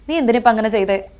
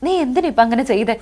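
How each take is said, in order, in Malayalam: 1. സാധാരണ രീതിയിലാണ് പറഞ്ഞിരിക്കുന്നത്. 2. അതിശയോക്തിയോടെ, നാടകീയമായാണ് പറഞ്ഞിരിക്കുന്നത്. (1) "സാധാരണ നമ്മള് ചോദിക്കാണ്" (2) "സീരിയലിൽ കുറച്ചുകൂടെയും ഒരു ഡ്രാമാറ്റിക് ആയിരിക്കും"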